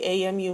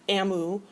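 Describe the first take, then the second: First: It is spelled out as three separate letters. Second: It is said as one word, like emu. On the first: The speaker calls it right. "we say A M U" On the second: The speaker calls it wrong. "not A M U. It sounds like, you know, maybe a cousin of an emu"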